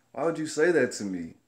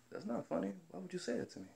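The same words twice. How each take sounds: First: Firm, voiced-up challenge; indignant retold protest. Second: High, very soft voice; small, high, wounded objection; retold hurt protest. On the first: Worker challenging the manager's joke, retold indignant protest. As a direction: demand an answer, put out. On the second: Worker objecting to the manager's joke, retold soft hurt protest.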